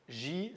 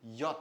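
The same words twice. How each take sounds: First: The letter name has a French pronunciation. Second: The letter name has a German pronunciation. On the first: The speaker calls it wrong. "C'est pas J" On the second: The speaker calls it right. "c'est J"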